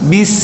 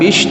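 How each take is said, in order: First: The consonant is a thin, hissing 's' sound. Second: The consonant is a hushing 'sh' sound. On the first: The speaker calls it right. "tapi bis, ya tipis sin" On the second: The speaker calls it wrong. "bukan bish"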